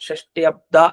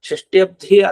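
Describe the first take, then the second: First: The d sound is unaspirated, without breath. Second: The d sound is aspirated, with breath. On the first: It means the sixtieth year. The speaker calls it right. "ಷಷ್ಠ್ಯಬ್ದ ಅನ್ಬೇಕು, ಅದು ಅಲ್ಪ ಪ್ರಾಣ" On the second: It would mean the sea of sixty years. The speaker calls it wrong. "ಷಷ್ಠ್ಯಬ್ಧಿ ಅಲ್ಲ ಅದು"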